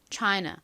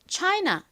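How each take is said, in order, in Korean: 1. 마지막 모음은 약하게 줄어든 'uh' 소리예요. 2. 마지막 모음은 열린 'ah' 소리예요. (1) "이렇게 살짝 어에 가깝게 발음하나" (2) "이렇게 아 소리로 발음을 하나"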